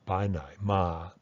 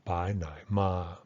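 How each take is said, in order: The two takes are said the same way.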